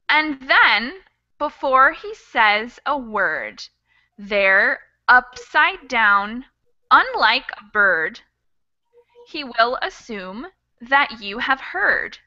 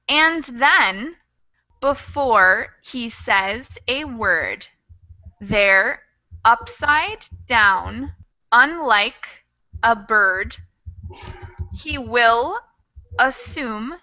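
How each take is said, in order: First: It is read at a moderate speed. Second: It is read at a slower speed.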